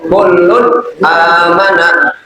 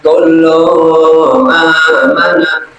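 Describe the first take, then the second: First: The n sound after kullu is clearly pronounced. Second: The n sound after kullu is dropped. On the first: The speaker calls it right. "harus dibaca jelas" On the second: The speaker calls it wrong. "itu salah"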